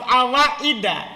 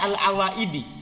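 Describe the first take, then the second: First: The word ends with an a vowel. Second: The word ends with an i vowel. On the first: "Seharusnya dibaca alaf awaida" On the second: "Kenapa saya baca al-awaidi?"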